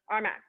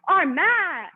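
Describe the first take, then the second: First: It is said flatly, without excitement. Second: It is said with lively excitement. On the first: The speaker calls it wrong. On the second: The speaker calls it right.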